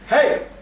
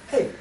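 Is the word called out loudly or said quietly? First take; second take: loud; quiet. First: It is called out loudly with pressure. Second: It is said quietly with little pressure.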